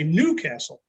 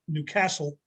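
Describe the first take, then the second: First: The stress is on the first syllable. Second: The stress is on the second syllable. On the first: This is how the speaker's own people say it. "emphasis on the first" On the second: This is how the locals say it. "emphasis on the second syllable"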